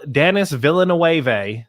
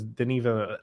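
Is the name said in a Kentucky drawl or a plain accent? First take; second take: Kentucky; plain. First: The name is said in a Kentucky drawl. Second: The name is said in a plain accent. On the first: The speaker calls it wrong. "in like a full Peggy Hill voice" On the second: The speaker calls it right. "That's what it is"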